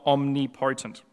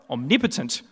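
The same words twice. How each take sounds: First: The stress falls on the 'po' of 'potent'. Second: The stress falls on the second syllable, 'nip'. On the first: The speaker calls it wrong. "not omnipotent" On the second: The speaker calls it right. "No, omnipotent"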